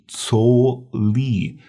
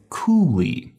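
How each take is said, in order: First: The first word begins with a ts sound. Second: The first word begins with a k sound. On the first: The speaker calls it right. "this is pronounced tso li" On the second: The speaker calls it wrong. "Please do not say ku li"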